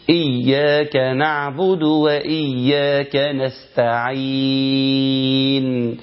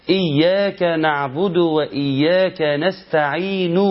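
First: Slow chant, نستعين held into a vowelless n; pausal sukoon ending. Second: Slow recitation, نستعين ending in an audible "nu"; final damma voiced. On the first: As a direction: drop the "u" and stretch the last "ee" of نستعين. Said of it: "يشيل الضمة خالص ويخليها سكون". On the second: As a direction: sound the "u" after the noon of نستعين. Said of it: "النون في نستعين مضمومة". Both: Shown as a demonstration.

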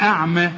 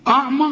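First: أعمى with thin, fronted vowels, "a'meh"; light hamza. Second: أعمى with thick, back vowels, pitched higher; heavy hamza. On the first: Teacher offers the correct option, أعمى said thin. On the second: Teacher offers the mistaken option, أعمى said thick and high. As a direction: darken the أ of أعمى. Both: Shown as a demonstration. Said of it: "ولا أعمى؟".

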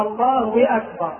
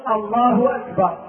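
First: A wa glide between الله and أكبر; inserted waw. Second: Slow الله ending in hu, then a clean أكبر; correct takbir. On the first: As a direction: say Allaahu-wakbar, w replacing the start of أكبر. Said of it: "والخطأ قوله". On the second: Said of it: "إذا الصواب أن يقول". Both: Shown as a demonstration.

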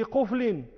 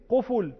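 First: قفل said "QUF-lin", no vowel after the f; sukun before echoing. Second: قفل said "QU-ful", u after the f; echoed damma. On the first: Teacher giving an example, قفل unaltered as "quflin". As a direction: close the first syllable of قفل on f. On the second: Teacher giving an example, قفل echoed as "quful". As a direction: add an echoing u in قفل. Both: Shown as a demonstration. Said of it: "وكل ذلك للإتباع".

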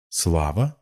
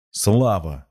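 First: Слава rising at the end in disbelief; stunned question. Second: Слава louder and higher, falling at the end; emphatic exclamation. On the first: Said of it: "опешила девушка". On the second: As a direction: declare Слава as a firm answer. Emphatic answer to her question. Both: A narrator's reading.

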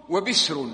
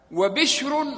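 First: وبسر said with a plain s before the r; وبسر with s, not sh; undotted sin. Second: وبشر said wa-bishrun, with a clear sh; وبشر with sh, not s; dotted shin. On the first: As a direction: make the s in وبسر distinct from sh. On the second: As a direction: stress the "bish" in وبشر, pitched high. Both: Shown as a demonstration. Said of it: "ما كان في نقط أول".

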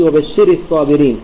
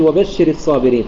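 First: وبشر الصابرين stressed late, on شِرِ; wrong feminine stress. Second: وبشر الصابرين with stress on بش; correct stress. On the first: Teacher showing what we don't say, stress on the ر of وبشر. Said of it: "لا يوجد خطاب لمؤنث". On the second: Teacher giving the right reading, وبشر stressed on بش. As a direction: keep the ر of وبشر light, weight on بش. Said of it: "ولكن نقول وبشر الصابرين". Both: Shown as a demonstration.

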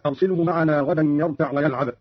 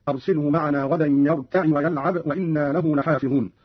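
First: Said in the usual way. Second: يرتع said "yarta'i", with "i" after the ayn; kasra on the ayn. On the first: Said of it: "قوله تعالى". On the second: Shown as a demonstration. Teacher demonstrating Qalun's reading, يرتع as "yarta'i". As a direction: add a short "i" to close يرتع before ويلعب. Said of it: "بكسر العين هكذا".

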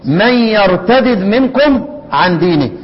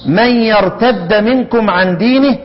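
First: Slow recitation, يرتدد with two separate dals: yartadid; idgham undone. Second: Slow recitation, يرتد with one doubled d: yartadda; idgham. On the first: Teacher contrasts readings for students, يرتدد split as yartadid. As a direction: split the dals in يرتدد, the last one unvowelled. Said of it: "لفظ بالقراءة". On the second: Teacher contrasts readings for students, يرتد merged as yartadda. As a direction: merge the two dals in يرتد, ending in "a". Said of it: "هي فك الإدغام، الإدغام وفك الإدغام". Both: Shown as a demonstration.

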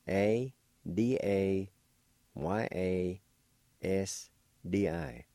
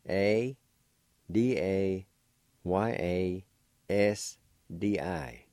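Both takes have the same delivery.

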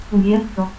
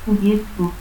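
First: Said in the usual way. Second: Cubierto as "cubiettu". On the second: Shown as a demonstration. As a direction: stop for R in Cubierto, final u. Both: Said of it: "confusión de R y T al final de sílaba".

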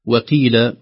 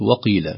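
First: وقيل with a thin unemphatic waw; light waw. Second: وقيل with a thick emphatic waw; heavy waw. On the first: (ترقيق الواو في وقيل) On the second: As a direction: darken the و in وقيل. (تفخيم الواو في وقيل) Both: Shown as a demonstration. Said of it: "وليست".

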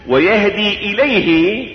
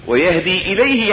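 First: ويهدي إليه drawn out slowly, rising on إليه; slow recitation. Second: Said in the usual way. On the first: Shown as a demonstration. Preacher quoting the verse slowly to listeners. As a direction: stretch ويهدي إليه, lifting إليه at the end. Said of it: "إيش؟". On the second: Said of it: "يعني إلى الله".

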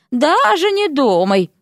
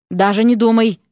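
First: Slow, drawn-out, higher-pitched taunt; mocking mimicry. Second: Said in the usual way. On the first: A narrator's reading. Vasya teasing Erik with his own phrase, mocking. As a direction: parrot it back with stretched vowels. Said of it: "фыркнула Вася и передразнила".

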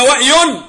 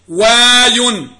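First: وأي with a glottal stop between وا and ي; wrong form with hamza. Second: واي drawn out long, smooth glide with no glottal stop; no hamza. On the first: Teacher shows students the wrong form, وأي with hamza. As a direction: break وأي with a hamza catch. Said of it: "لماذا لا نقول وأي؟". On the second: Teacher models for students the correct form: واي drawn out, no hamza. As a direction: stretch واي slowly, one gliding syllable. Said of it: "ما تقولش الهمزة". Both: Shown as a demonstration.

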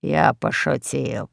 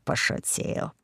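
First: Said in the usual way. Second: Pошутил breathed out, unvoiced and much softer; whispered retreat. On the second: Scared host backs down from the parrot, whispering пошутил. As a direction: drop пошутил to a hushed whisper.

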